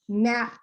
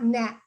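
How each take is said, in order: First: An extra uh vowel follows the final p. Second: The word ends cleanly on the final p. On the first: The speaker calls it wrong. "we don't want something like nap" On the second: The speaker calls it right. "We want nap"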